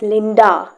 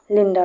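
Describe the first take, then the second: First: The final vowel is a full, clear A. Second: The final vowel is a quick, short schwa. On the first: The speaker calls it wrong. "like not Linda" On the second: The speaker calls it right. "It is pronounced as very quickly"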